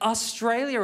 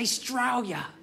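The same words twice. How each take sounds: First: The word begins with a clear 'A' sound. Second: The word begins without the 'A' sound. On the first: The speaker calls it wrong. "who calls it Australia anymore? We don't say the A" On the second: The speaker calls it right. "Don't say the A, hold on to the A. Just say Australia"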